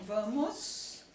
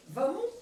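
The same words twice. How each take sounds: First: Said in the usual way. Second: Vamos said as "vamo" with no final S. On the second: Shown as a demonstration. Teacher showing a regional variant: vamos as "vamo". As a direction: drop the S from vamos. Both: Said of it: "sem o S".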